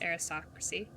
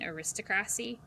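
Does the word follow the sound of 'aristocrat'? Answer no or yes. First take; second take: no; yes. First: It is not shaped like the word 'aristocrat'. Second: It is shaped like 'aristocrat' with an ending added. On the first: The speaker calls it right. "how it's supposed to be said" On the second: The speaker calls it wrong. "I'm so used to saying like aristocrat"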